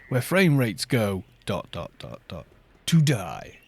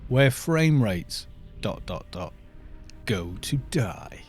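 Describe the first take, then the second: First: The pause comes after "go", before "to die". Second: The pause comes after "rates", before "go".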